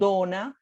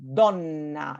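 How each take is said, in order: First: The n sound is short, with no pause. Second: The n sound is held, with a pause. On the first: The speaker calls it wrong. "It's not donna" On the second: The speaker calls it right. "but it's donna, and there's sort of like that ... pause there"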